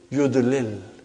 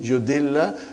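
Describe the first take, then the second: First: The two L sounds are split by a vowel. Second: The two L sounds merge into one doubled L. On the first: "You break the idgham" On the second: "there is one way of writing majzum"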